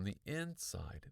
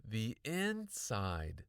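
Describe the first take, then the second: First: Said in the usual way. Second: INSIDE stretched out slowly; stress on INSIDE. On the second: A narrator's reading. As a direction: draw out "inside" as a key realization. Realization repeated with emphasis.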